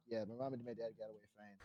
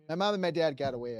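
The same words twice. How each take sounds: First: Much softer, quick throwaway mumble; muttered aside. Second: Said in the usual way. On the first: Retold or imitated. Reassuring himself his parents survived, a quick soft mutter. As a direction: toss it off under your breath, fast.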